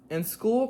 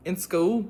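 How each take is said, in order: First: Southern accent, lifted at the end. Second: Brief, wobbly go at an Irish accent; attempted Irish accent. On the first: Real, not acted. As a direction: read it in your own Southern accent. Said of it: "read it in my nice southern accent". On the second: Shown as a demonstration. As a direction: try Irish on a short phrase. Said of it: "should I read this in an Irish accent".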